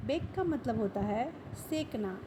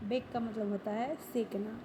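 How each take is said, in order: Both takes have the same delivery.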